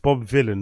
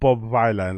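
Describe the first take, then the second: First: The first syllable rhymes with 'pill'. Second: The first syllable rhymes with 'pie'. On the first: The speaker calls it right. "Vi- villain rhymes with Dylan" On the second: The speaker calls it wrong. "not Bob Vilan, like I've been pronouncing it"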